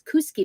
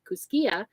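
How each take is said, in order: First: The name ends without the final 'a' sound. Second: The name ends with an audible 'a' sound. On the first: It is the local pronunciation. The speaker calls it right. "that's how they pronounce it locally" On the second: It follows the spelling. The speaker calls it wrong. "it sounds like it should be Kuskia"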